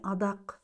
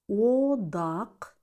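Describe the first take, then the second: First: The first vowel is reduced to an A sound. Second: The first vowel is a full O sound. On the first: The speaker calls it wrong. "а не" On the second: The speaker calls it right. "звук О в безударных слогах всегда произносится как О"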